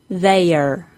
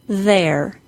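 First: The word is said as two syllables. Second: The word is said as one syllable. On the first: It sounds like the separate words they and are. The speaker calls it wrong. "Incorrect? ... incorrectly as two syllables" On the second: It is the contraction of they are. The speaker calls it right. "Correct? ... pronounced correctly as one syllable"

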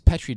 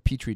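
First: The word is said with a British pronunciation. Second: The word is said with an American pronunciation. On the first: "depending if you're British or American" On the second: "depending if you're British or American"

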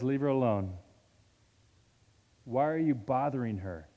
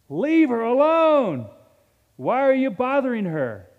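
First: It is said in a mild, gentle tone. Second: It is said in a sharp, forceful tone. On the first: A mild request to stop. The speaker calls it wrong. "He didn't say it like that" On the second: A stern rebuke of the accusers. The speaker calls it right. "He rebukes the disciples then, and he rebukes them now"

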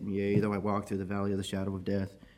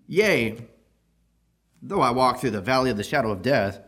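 First: It is mumbled slowly in a sorrowful, dragging tone. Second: It is spoken clearly in a bold, confident tone. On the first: The reader is wallowing in pain and sorrow. The speaker calls it wrong. "they just kind of mumble on and drag through, and they're wallowing in their sorrow" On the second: The reader is unafraid and trusts in protection. The speaker calls it right. "we should be reading this verse a different way"

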